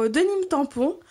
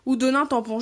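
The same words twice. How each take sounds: First: « Denim » dit « deu-nim », à l'anglaise; prononciation hésitante. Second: « Denim » dit « do-nin », à la française; autre prononciation. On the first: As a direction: essayer « Denim » en « deu-nime », intonation montante. (« Denim » hésitant, dit « deu-nime ») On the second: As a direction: proposer « Denim » en « do-nin », intonation descendante. (« Denim » francisé en « do-nin ») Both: Shown as a demonstration. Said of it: "je ne sais pas comment on dit".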